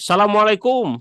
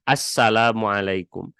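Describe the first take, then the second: First: It is said casually with a short s sound. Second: It is said carefully with a doubled s sound. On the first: A casual greeting to a friend. The speaker calls it wrong. "karena kebiasaan merenya adik ketemu dengan teman" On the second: A careful recitation in prayer. The speaker calls it right. "harus rada diapikan"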